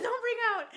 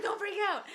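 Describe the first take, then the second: First: Higher still, loud, laughing; laughing retelling. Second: High and loud, laughing through it; laughing retelling. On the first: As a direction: crack up harder while repeating it. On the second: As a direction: crack up while saying it. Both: Retold or imitated. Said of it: "I said".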